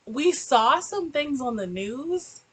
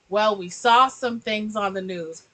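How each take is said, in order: First: Mocking the dad. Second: Said in the usual way. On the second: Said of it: "he says".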